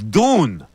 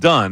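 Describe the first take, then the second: First: The vowel is long, as in 'moon'. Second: The vowel is short, as in 'sun'. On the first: Only some people pronounce it this way. "some people may pronounce it as Dune" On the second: This is the usual pronunciation in Ireland. "is typically pronounced Dunn uh, in Ireland"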